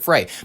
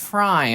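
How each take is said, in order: First: The vowel sounds like the one in 'day'. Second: The vowel sounds like the one in 'die'. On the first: It is said the way it is spelled. "It's spelled Frey, pronounce it Frey" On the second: It is said like the cartoon character's name. ""No, it's Fry"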